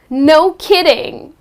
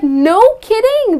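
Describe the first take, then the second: First: It sounds sarcastic and unimpressed. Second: It sounds mildly surprised and pleased.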